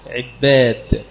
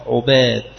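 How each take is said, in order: First: عباد with kasra on ع and a doubled ب, ʕibbād; pronunciation demo. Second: عباد with damma on ع and a single ب, ʕubād; pronunciation demo. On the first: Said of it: "بالكسر وتشديد الموحدة". (عِبّاد بكسر العين وتشديد الباء) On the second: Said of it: "بالضم وتخفيف الموحدة". (عُباد بضم العين وتخفيف الباء) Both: Shown as a demonstration.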